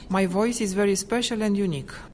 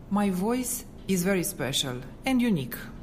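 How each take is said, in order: First: The sentence has plain, ordinary intonation. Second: The sentence has a noticeably altered intonation.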